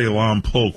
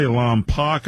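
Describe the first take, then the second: First: Lompoc with a long O ending; Lompoc said "Lom-poke". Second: Lompoc with a short "pock" ending; mispronounced Lompoc. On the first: Host offers the other local pronunciation, Lompoc ending in "poke". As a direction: end Lompoc like the word "poke". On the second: Host quotes how some people mispronounce the town, Lompoc ending in "pock". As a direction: say Lompoc wrongly, rhyming the end with "lock". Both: Shown as a demonstration. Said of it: "a lot of people mispronounce it".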